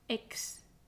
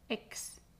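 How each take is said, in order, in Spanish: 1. La x se pronuncia como k más s. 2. La x se pronuncia como k más s.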